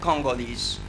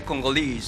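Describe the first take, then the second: First: It is said with an American stress pattern. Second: It is said with a British stress pattern. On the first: "in American English, for example, we, we, we we say Congolese" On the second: "but in British English, they say Congolese"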